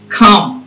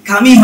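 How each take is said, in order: First: The word ends on the consonant, e silent. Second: The final e is sounded as a vowel. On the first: The speaker calls it right. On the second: The speaker calls it wrong.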